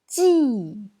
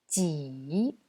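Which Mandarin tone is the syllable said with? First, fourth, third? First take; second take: fourth; third. First: It is said with the fourth tone. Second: It is said with the third tone. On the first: "C'est le quatrième ton" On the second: "C'est le troisième ton"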